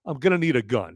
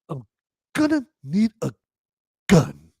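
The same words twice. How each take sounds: First: It is said plainly, without extra force. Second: It is said with heavy, overdone emphasis. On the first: The speaker calls it right. "which should be a simple line" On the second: The speaker calls it wrong. "he tries to put too em- too much emphasis on it"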